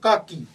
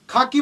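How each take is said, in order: First: The first consonant has no puff of breath. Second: The first consonant has a strong puff of breath. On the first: This is how it is said in English. "त्याचा उच्चार काकी असा केला जातो" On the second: This is how it is said in Marathi. "मराठीत जर आपण म्हटलं खाकी, बघा खाकी आपण म्हणतो खाकी"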